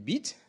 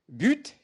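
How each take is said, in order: First: The vowel is an unrounded i sound. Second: The vowel is the rounded French u sound. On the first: This is how Berber adapts the borrowed word. "adapté en berbère comme le bit" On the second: This is the original French pronunciation. "des emprunts en français qui est but"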